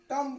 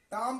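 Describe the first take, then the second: First: "टम" read as spelt, with short vowel; as written. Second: "टाम" with long vowel, ending on m; silent b. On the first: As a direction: sound "टम" out by its spelling. ("टम" जैसा लिखा, छोटा स्वर) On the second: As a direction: lengthen "टाम" and drop the b. ("टाम" में ब साइलेंट, लंबा स्वर) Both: Shown as a demonstration. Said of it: "टाम पढ़ा जाएगा".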